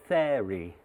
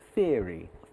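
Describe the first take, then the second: First: The first syllable does not rhyme with ear. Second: The first syllable rhymes with ear. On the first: The speaker calls it wrong. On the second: The speaker calls it right.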